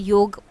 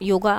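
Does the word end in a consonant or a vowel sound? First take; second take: consonant; vowel. First: The word ends on the final consonant. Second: The word ends with an added final vowel. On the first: This is the older, original form. "पहले हम इनको योग बोलते थे, योग ही इसका सही pronunciation है" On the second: This is the form people use nowadays. "योगा अभी हम इन्हें बोलने लगे हैं"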